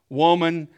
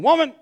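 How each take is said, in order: First: It is said in a polite, respectful tone. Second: It is said in a rude, disrespectful tone.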